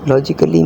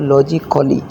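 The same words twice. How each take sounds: First: The a before the final ly is silent. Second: The a before the final ly is pronounced. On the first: The speaker calls it right. "But here ए is silent" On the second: The speaker calls it wrong. "अगर इसमें ए अगर जो है ना silent ना होता फिर ये बनता लॉजिकली"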